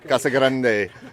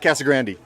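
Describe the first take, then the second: First: The name is said with Spanish pronunciation. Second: The name is said with English pronunciation. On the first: The speaker calls it right. "you would say" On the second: The speaker calls it wrong. "they say"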